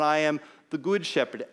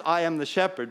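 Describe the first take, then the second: First: "good" leaned on, slightly louder and held; stress on GOOD. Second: Said in the usual way. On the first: Shown as a demonstration. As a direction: weigh the word "good" against the plain version. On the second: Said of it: "Not just".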